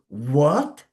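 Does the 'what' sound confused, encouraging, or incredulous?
incredulous. It sounds shocked and disbelieving. The listener cannot believe what was said. "you don't want to believe it. It's something unbelievable"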